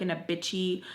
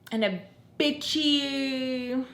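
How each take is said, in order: First: Said in the usual way. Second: Drawn-out whiny sneer; whiny bitchy. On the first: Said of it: "wah, me tone". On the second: Shown as a demonstration. Mocking Hennessy's complaining, slow whiny drawl. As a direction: stretch it out like a spoiled whiner. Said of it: "wah, wah, wah, me tone".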